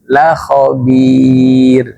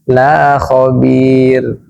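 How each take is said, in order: First: The vowel of 'la' is short. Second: The vowel of 'la' is long. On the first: The speaker calls it right. "Kalau tidak ada mad dibaca cepat pendek" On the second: The speaker calls it wrong. "Hati-hati jangan dibaca la khabir. Ini beda makna"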